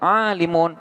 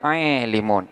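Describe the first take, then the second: First: The long vowel is a plain open a. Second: The long vowel is tilted toward e. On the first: "Boleh dibaca alimun" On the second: "boleh juga dibaca aelimun"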